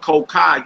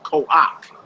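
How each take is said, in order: First: The word ends on an open 'ah' vowel. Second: The 'ah' vowel comes before the final consonant. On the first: The speaker calls it wrong. "you wouldn't pronounce that ko-ka" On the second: The speaker calls it right. "you pronounce that ko-ak"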